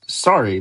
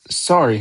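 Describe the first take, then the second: First: Mildly barked sorry; Hagrid. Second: Quick apology. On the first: Hagrid throwing Harry's apology back, mildly barked. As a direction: throw the word back, a restrained bark. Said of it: "barked Hagrid". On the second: Harry apologizing to the shocked giant, quickly. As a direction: offer a quick, small apology. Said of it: "Harry said quickly". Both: A narrator's reading.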